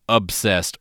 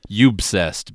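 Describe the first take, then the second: First: The word starts with a plain 'ob' sound. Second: The word starts with a 'you' sound. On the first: "quote-unquote obsessed" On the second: "if you prefer the pronunciation, you-bsessed, because they spell it with a U"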